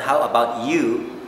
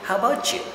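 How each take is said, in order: First: The t and the y are said separately. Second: The t and y merge into a ch sound. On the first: The speaker calls it wrong. "It's not how about you" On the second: The speaker calls it right. "They say, how about you?"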